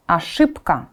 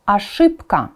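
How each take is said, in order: Both takes have the same delivery.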